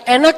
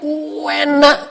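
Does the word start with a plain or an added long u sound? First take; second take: plain; added u. First: The word starts plainly with an e sound. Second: The word starts with an added u sound. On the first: It is tasty. "bukan enak" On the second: It is very tasty. "ada u-nya dulu"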